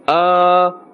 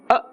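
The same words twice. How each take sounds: First: The vowel is drawn out long and stretched. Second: The vowel is cut off short and abruptly. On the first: "we are actually adding another letter. We are adding an alif" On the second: "This is the jerking of the sound. This is incorrect"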